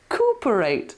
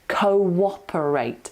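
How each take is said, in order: First: The first syllable runs into the next without a glide. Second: A w-like glide links the first two syllables. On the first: The speaker calls it wrong. "it looks like cooperate, doesn't it? ... but it's not" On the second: The speaker calls it right. "you've got to put an invisible w in there"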